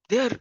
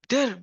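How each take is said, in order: Both takes have the same delivery.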